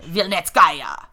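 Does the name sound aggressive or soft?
aggressive. The name is said harshly and aggressively. "It's very"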